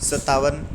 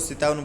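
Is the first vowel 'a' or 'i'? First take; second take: a; i. First: The first vowel is 'a'. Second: The first vowel is 'i'. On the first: The speaker calls it right. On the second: The speaker calls it wrong.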